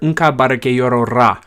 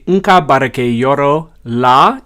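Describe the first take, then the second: First: The last word begins with an R sound. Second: The last word begins with an L sound. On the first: This is how it is said in Jula. "the use of an R sound instead of an L sound" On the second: This is how it is said in Bambara. "You can say Nka barake yoro la in Bambara"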